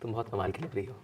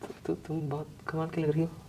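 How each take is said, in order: First: It is said lovingly and warmly. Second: It is said fearfully, with stammering.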